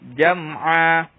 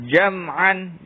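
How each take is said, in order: First: The word ends in a long a vowel. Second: The word ends with an -an sound. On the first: This is how it is read when stopping. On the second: This is how the word is written.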